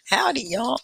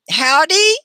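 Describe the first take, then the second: First: Southern greeting. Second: Drawled howdy. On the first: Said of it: "it's very Southern". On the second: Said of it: "I'm from Texas". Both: Pretend.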